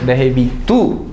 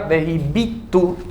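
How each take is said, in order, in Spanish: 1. El acento está en la última sílaba. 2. El acento está en la penúltima sílaba. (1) "si lo leo en futuro es vejibitu, vejibitu, tilde en la u" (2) "si yo lo leo en pasado, diría vejibitu, tilde en la i, en la segunda i"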